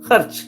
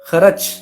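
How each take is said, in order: First: The r joins the first syllable: khar-ch. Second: A vowel separates r and ch: kha-rach. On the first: The speaker calls it right. "सही क्या है? खर्च … रा ऊपर खा के साथ चला जाएगा" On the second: The speaker calls it wrong. "खर्च का वजन क्या है? एक दो, लेकिन ये गलत है"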